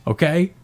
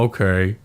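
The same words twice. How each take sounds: First: "Okay" lifted in a rising question. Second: "Okay" low and settled, no question; retold kid giving in with a lower "Okay"; subdued agreement. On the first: Retold or imitated. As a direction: parent checking a child understood, "Okay" pitched up. Dad checks son understood. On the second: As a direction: say "Okay" as a meek acceptance. Voices son's subdued agreement.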